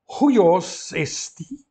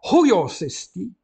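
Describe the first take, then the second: First: "huios esti" dito muito devagar, palavra a palavra, alto; sílabas separadas. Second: "huios esti" ligado numa só emissão, alto; tudo junto. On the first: ("huios esti" bem pausado, palavra por palavra) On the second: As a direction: junte "huios esti" sem pausa entre as palavras. ("huios esti" dito tudo junto, de seguida) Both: Shown as a demonstration. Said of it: "tudo junto".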